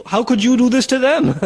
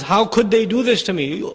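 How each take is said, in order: First: Them pressed down firmly at the end; stress on them. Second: Said in the usual way. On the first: Shown as a demonstration. Preacher turns the parents' words back, stressing them. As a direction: throw the question back, leaning on them. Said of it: "you did this to them". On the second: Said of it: "now you're surprised".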